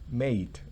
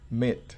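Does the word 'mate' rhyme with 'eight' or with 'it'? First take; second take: eight; it. First: The vowel is a long 'ay' sound. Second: The vowel is a short 'ih' sound. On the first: The speaker calls it right. "el mate se pronuncia definitivamente mate" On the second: The speaker calls it wrong. "no mit"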